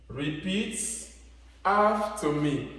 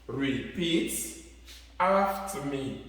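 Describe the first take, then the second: The two takes are said the same way.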